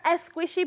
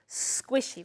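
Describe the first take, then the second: First: An extra e vowel comes before the s. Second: The word begins directly with the s. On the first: The speaker calls it wrong. "never as squishy" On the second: The speaker calls it right. "but always squishy"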